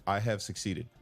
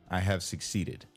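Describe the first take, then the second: No difference in how they are said.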